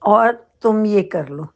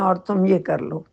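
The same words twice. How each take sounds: First: The sentence is said with strong added force. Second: The sentence is said in a plain, even way. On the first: You really do have to do this. "Emphasise करना है, ज़ोर देना है" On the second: It is an ordinary request. "ये normal सी हमारी बात है"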